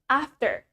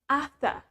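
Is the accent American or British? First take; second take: American; British. First: It is said in an American accent. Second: It is said in a British accent. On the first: "In American" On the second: "British English"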